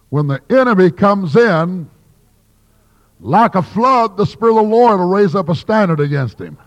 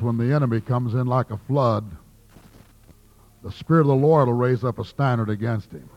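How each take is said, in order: First: The pause comes before 'like a flood'. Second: The pause comes after 'like a flood'.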